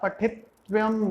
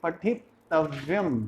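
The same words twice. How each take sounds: First: The middle t is clipped, without its vowel. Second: The middle t is full, with its vowel. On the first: The speaker calls it wrong. "आप पठितव्यम बोल रहे हो, that means ट is half" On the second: The speaker calls it right. "But त is complete"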